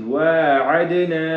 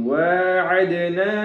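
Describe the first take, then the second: No difference in how they are said.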